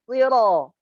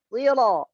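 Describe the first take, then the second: Both takes have the same delivery.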